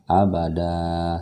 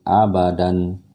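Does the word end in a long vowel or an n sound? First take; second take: long vowel; n sound. First: The word ends with a long open vowel. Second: The word ends with a short vowel and n. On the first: The speaker calls it right. "sama seperti ini bacanya" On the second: The speaker calls it wrong. "bukan lagi abadan, bukan begitu"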